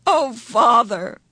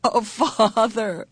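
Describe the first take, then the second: First: Louder, voice cracking, slow; happy sob. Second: Happy sob. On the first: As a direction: break down sobbing with relief. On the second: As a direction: voice breaking, slow and tearful. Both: A narrator's reading. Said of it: "Her voice broke on a happy sob".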